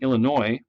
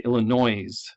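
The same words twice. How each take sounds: First: The final s is silent. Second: The final s is pronounced. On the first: The speaker calls it right. "instead of saying Illinois" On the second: The speaker calls it wrong. "that's the way it's spelled, but it's not how we say it"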